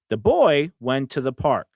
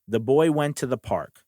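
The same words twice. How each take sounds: First: The words 'the boy' are on higher pitch. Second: No word is set apart by pitch.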